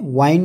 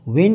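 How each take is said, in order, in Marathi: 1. स्वर दीर्घ आहे, जसा 'wine' मध्ये. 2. स्वर ह्रस्व आहे, जसा 'win' मध्ये. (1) "वाईन नाही" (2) "विंड आहे"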